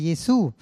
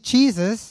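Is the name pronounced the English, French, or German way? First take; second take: French; English. First: The name is pronounced the French way. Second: The name is pronounced the English way. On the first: "in Französisch sagt man" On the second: "in Englisch"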